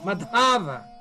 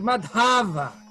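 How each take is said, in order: The two takes are said the same way.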